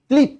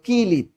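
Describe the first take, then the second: First: The k and l sounds are joined together. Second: A vowel separates the k and l sounds. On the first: "যুক্ত বর্ণ ভাঙো" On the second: "ক্লিপ হয়ে গেল কিলিপ"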